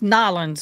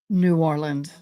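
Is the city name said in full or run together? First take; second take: run together; full. First: The name is squeezed into two quick syllables. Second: The name is said in full, syllables separate. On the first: This is the casual way locals say it in conversation. "In everyday speak, / Kind of runs it together" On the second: This is the formal way officials and news say it. "there's formal speaking"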